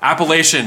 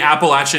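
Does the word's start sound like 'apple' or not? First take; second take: not apple; apple. First: The start of the word does not sound like 'apple'. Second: The start of the word sounds like 'apple'. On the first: The speaker calls it right. "now I know" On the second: The speaker calls it wrong. "you say Apple"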